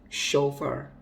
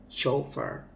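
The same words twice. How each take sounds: No difference in how they are said.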